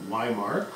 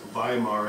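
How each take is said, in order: First: The word begins with a W sound. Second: The word begins with a V sound. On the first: It follows an English pronunciation. "as opposed to" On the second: It follows the German pronunciation. "W's are pronounced like V's when you're speaking German"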